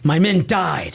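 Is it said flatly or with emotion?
emotional. It is said emotionally, as if choked up.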